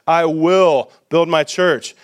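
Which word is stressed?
will. The stress is on "will".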